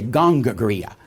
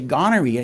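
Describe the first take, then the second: First: The word is mangled with extra g sounds. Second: The word is said in its standard form. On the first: The speaker calls it wrong. "he'd say gongagria" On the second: The speaker calls it right. "He wouldn't say gonorrhea"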